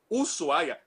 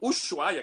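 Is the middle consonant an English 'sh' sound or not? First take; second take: not sh; sh. First: The middle consonant is not an English sh. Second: The middle consonant is an English-style sh. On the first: The speaker calls it right. "que na realidade é Ushuaia" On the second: The speaker calls it wrong. "os brasileiros erram falando"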